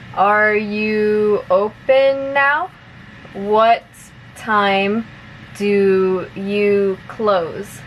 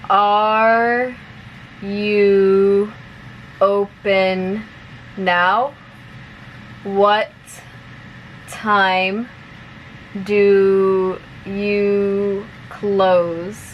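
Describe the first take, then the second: First: The sentences are spoken at a moderate pace. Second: The sentences are spoken at a slow pace. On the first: "a little bit faster now" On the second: "I'll say it slowly first"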